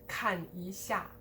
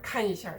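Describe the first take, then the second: First: The syllables after 看 are stressed. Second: The syllables after 看 are unstressed. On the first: The speaker calls it wrong. "but not" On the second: The speaker calls it right. "also de-stressed"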